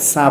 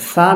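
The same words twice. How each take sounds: First: সা with a hissed "s" instead of "th"; mistaken hard sa. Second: সা with a soft lisped "th"; correct soft tha. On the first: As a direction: say সা as a plain sharp "sa". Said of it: "সা বলে ফেলতে পারে". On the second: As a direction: say সা softly, as "tha" in "thank". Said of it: "সা না বলে সা বলে ফেলতে পারে". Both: Shown as a demonstration.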